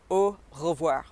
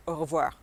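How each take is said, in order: First: "au revoir" slowly split, pause after au; syllable by syllable. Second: Said in the usual way. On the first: Shown as a demonstration. Teacher giving a bonus word, slow split "au revoir". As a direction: model "au revoir" slowly, French R. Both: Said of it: "That's a little bonus one for you".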